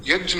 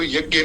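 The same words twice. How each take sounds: First: यज्ञ said as "yajna", j joined to n; pure Sanskrit pronunciation. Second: यज्ञ said as "yagya", with a hard g; common mispronunciation. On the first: Teacher correcting to pure Sanskrit, यज्ञ pronounced "yajna". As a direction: sound यज्ञ with j-n, no g. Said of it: "तो यज्ञ नहीं होता है". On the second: Teacher showing listeners the common wrong saying, यज्ञ as "yagya". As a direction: say यज्ञ the everyday way, "yag-gye". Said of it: "बोलना ही बहुत कठिन है". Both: Shown as a demonstration.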